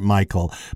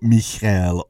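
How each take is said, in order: First: The name is said like English Michael. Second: The name is said in the Hebrew way. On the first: The speaker calls it wrong. "we always pronounced her name Michael" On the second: The speaker calls it right. "I realize in the Hebrew it's Michelle"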